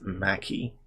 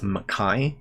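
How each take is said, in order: First: The name is said the American way. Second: The name is said the Scottish way. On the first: "I guess if he's American, it's Mackey" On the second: "the original Scottish pronunciation"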